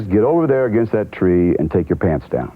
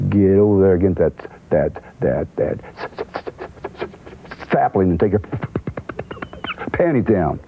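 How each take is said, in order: First: Said in the usual way. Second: Lightly voiced stammering country man, repeating "that" haltingly; imitating Cowboy's stutter. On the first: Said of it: "The line is". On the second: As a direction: stumble on "that, that, that" like a nervous non-reader. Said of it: "So Cowboy goes".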